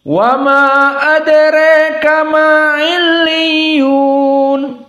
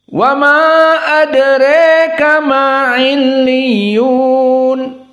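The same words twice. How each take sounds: Both takes have the same delivery.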